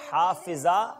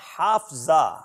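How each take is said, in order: First: A short i vowel is heard after the f. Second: No vowel is heard between the f and z. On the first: The speaker calls it right. "दुरुस्त तलफ़्फ़ुज़ का इंतखाब करें" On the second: The speaker calls it wrong. "दुरुस्त तलफ़्फ़ुज़ का इंतखाब करें"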